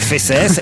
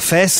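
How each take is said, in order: First: The final S sound is pronounced. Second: The final S sound is silent. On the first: The speaker calls it right. "ça se prononçait fesses" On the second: The speaker calls it wrong. "et non pas fesses"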